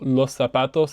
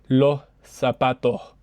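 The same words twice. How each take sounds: First: The s is a clear hissing s sound. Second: The s becomes a breathy h sound. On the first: "la pronunciación estándar dice s" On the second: "Aquí tenemos la aspiración de la S"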